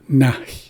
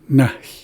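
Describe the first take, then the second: Both takes have the same delivery.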